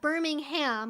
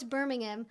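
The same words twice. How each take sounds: First: It is pronounced like the Alabama city. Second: It is pronounced like the English city. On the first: The speaker calls it wrong. "it's not Birmingham, which is the way you would pronounce it if it was the city in Alabama" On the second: The speaker calls it right. "I know it's Birmingham or or something like that at least, my approximate American accent to it"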